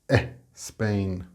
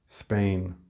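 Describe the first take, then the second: First: An extra vowel sound comes before the word. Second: The word starts directly with its consonants. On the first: The speaker calls it wrong. "you often say things like eh, Spain" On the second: The speaker calls it right. "instead of just Spain"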